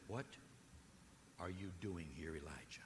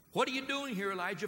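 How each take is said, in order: First: Whispered, soft and low; still small voice. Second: Higher and louder, ringing out; loud preaching cry. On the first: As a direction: whisper it like God's quiet question. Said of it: "that still small voice". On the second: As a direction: call the question out to the room. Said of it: "the still, small voice". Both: Acted.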